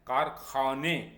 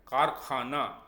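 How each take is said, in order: First: The word ends in a short 'e' vowel. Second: The word ends in a long 'aa' vowel. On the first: This is the Persian pronunciation. "फारसी में हम इसे हिंदी के छोटे ए से pronounce करते हैं" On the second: This is the Hindi pronunciation. "Hindi में ... आ की साउंड से बदल देते हैं"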